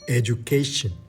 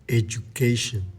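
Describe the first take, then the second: First: The 'du' is said as a 'joo' sound. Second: The 'du' is said as a 'joo' sound.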